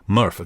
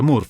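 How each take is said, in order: First: The name is pronounced with English sounds. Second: The name is pronounced with Italian sounds. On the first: This is the name's real pronunciation. The speaker calls it right. "in realtà il suo nome è Murph" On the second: This is how Italians would read the name. The speaker calls it wrong. "in italiano si pronuncia Murph"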